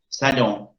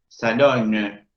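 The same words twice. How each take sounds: First: The O is nasal with no separate N. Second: The final N is sounded after an oral O. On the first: "Hago que la, la O nasalice" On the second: "Si esa palabra se escribiera con una E al final, sonaría algo diferente"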